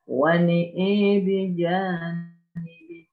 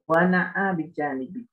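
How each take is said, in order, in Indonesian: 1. Kedua vokal pada na'a condong ke e. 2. Kedua vokal pada na'a adalah bunyi a terbuka.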